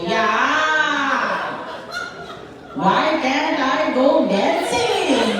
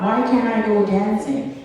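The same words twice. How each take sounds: First: High, drawn-out sing-song mockery; dismissive mocking repeat. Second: Said in the usual way. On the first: Mom repeats daughter's argument, dismissive high-pitched mimicry. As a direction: parrot it back slowly in a higher mocking voice. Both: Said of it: "just repeat my argument dismissively".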